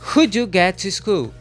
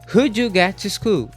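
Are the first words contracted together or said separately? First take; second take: contracted; contracted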